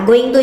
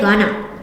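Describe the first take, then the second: First: Both words are said fully and separately. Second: The words are reduced and blended into one. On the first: "Going to itu sama kayak" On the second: "orang bilangnya gonna"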